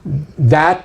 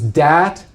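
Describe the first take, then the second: First: The word begins with a soft th sound. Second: The word begins with a hard d sound. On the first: "that becomes dat" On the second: "That's the D H part"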